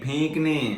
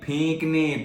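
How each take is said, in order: The two takes are said the same way.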